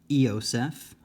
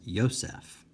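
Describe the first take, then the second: First: The word begins with a full 'ee' vowel. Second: The word begins with a 'y' sound. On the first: The speaker calls it wrong. "I did not uh, pronounce this as Eoseph" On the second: The speaker calls it right. "I pronounced it as Yosef"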